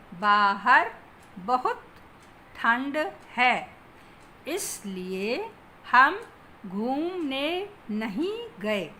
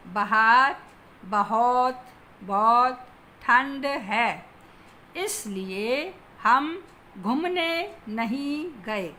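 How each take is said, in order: First: "बाहर" as BAA-har, "बहुत" as ba-hut; long first a in "बाहर", short u in "बहुत", long oo in "घूमने"; correct pronunciation. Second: "बाहर" as ba-HAAR, "बहुत" as ba-hot; mispronounced demo. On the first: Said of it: "शुद्ध रूप होगा". (शुद्ध उच्चारण: "बाहर" को बा-हर, "बहुत" को ब-हुत) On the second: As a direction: say "बाहर" with short first a and long second, "बहुत" with an o. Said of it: "शब्दों की वर्तनी अशुद्ध है". (अशुद्ध उच्चारण: "बाहर" को बहार, "बहुत" को बहोत) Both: Shown as a demonstration.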